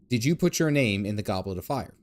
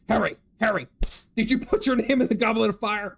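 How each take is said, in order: First: It is said calmly and peacefully. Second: It is said aggressively, like a chase.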